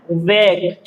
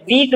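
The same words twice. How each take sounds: First: वेक said with a long ay vowel; correct reading of wake. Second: वीक said with a long ee vowel; wrong reading of wake. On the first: Teacher showing learners the right reading, वेक with ay vowel. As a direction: say वेक with ay, not ee. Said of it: "वेक पढ़ना है". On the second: Teacher warning learners off a misreading, वीक with long ee. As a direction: say वीक with ee, as the mistake. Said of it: "वीक नहीं पढ़ना". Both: Shown as a demonstration.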